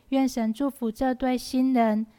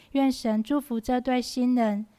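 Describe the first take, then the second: No difference in how they are said.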